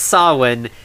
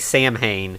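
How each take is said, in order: First: It is said as two syllables, 'sow-in'. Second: It is said as spelled, 'sam-hain'. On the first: The speaker calls it right. "So Grunter says Sawin" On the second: The speaker calls it wrong. "most of the rest of the characters say Samhain"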